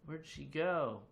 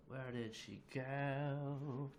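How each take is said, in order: First: Said in the usual way. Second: Slow, stretched-out playful question; drawn-out wondering. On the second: Pretend. Streamer looking for a vanished viewer, drawn-out wondering. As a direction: draw out the last word long.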